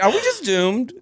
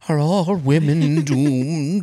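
First: It is said in a light, casual tone. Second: It is said in a heavy, grave tone.

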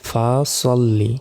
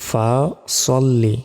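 Both takes have the same delivery.

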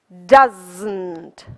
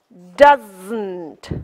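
First: Contracted to one word with a burst. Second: The same.

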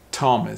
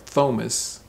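First: The first sound is a plain t sound. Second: The first sound is a th sound. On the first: The speaker calls it right. "the T-H sounds like a T sound" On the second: The speaker calls it wrong. "or Thomas"

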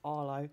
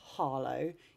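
First: The word begins without an H sound. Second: The word begins with an audible H sound.

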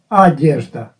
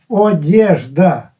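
First: The first vowel is an a sound. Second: The first vowel is a full o sound.

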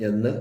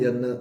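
No difference in how they are said.

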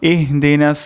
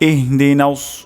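First: The s sound is plain and thin. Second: The s sound is heavy and emphatic. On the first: The speaker calls it wrong. "প্রথমে অশুদ্ধ উচ্চারণ করি, ইহদিনাস সিন উচ্চারণ করলাম" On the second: The speaker calls it right. "শুদ্ধ উচ্চারণটি হলো"

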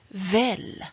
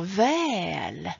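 First: The vowel is said short. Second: The vowel is said long. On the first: It means fairly sure or hoping so. "Det andra uttalet, och det är detta uttalet" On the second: It means the same as good. "Om du säger väl med långt ä"

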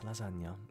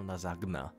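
First: The middle 'ny' sound is clearly pronounced. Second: The middle 'ny' sound is dropped. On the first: The speaker calls it right. "it's lasagna" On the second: The speaker calls it wrong. "don't even pronounce the nya"

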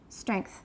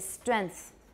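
First: The nasal is made at the back, like ng. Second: The nasal is made at the front, like n. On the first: The speaker calls it right. "that's an NG. As far as I'm concerned, it really should be velar" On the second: The speaker calls it wrong. "a lot of Taiwanese say strength"

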